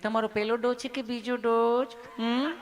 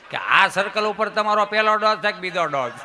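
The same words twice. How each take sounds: First: Sweet, loving nurse. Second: Raised-voice mock questioning; emphatic complaint. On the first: Acted. Nurse asking a patient about his dose, sweetly and lovingly. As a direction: ask lovingly, ending on a coaxing hum. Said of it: "તમે કેટલું પ્રેમથી પૂછો છો". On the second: Patient mocking what police never ask, in a raised voice. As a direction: push the question out forcefully.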